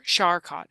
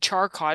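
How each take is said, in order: First: The name begins with a soft sh sound. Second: The name begins with a hard ch sound. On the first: The speaker calls it right. "but it's Char Charcot" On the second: The speaker calls it wrong. "I said Charcot. That's C H"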